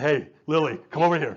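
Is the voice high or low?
low. It is said in a low voice.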